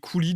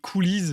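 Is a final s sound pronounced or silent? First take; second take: silent; pronounced. First: The word ends in a vowel, no s sound. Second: The word ends with a pronounced s sound. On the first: The speaker calls it right. "peut-être qu'on dit les coulis du coup" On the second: The speaker calls it wrong. "moi je disais les coulisses"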